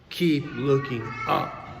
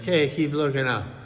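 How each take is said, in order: First: It is said slowly with deep, earnest meaning. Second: It is said lightly, like a cheery cliché.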